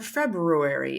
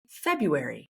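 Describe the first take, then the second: First: The first r sound is pronounced. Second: The first r sound is dropped.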